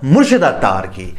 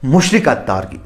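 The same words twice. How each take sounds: First: Said in the usual way. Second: मुशरिक spoken clearly in place of मुर्शिद, with a falling end; a deliberate slip, मुशरिक instead of मुर्शिद; mock slip of the tongue. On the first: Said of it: "तो मेरा मतलब". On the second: Shown as a demonstration. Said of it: "sorry, मेरी जुबान फिसल गई".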